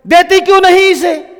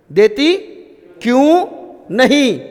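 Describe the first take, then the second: First: Loud, high, sharp scolding shout; irritated mother yelling at the older daughter to share; mom scolding from inside. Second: Teacher slowly demonstrating the scolding question, word by word. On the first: Acted. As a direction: snap at the daughter from the kitchen, क्यों hit hard. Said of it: "ऐसी आवाज़ आती है क्या?". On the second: Shown as a demonstration. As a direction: split देती क्यों नहीं into three separate stressed beats. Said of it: "कैसा वाक्य?".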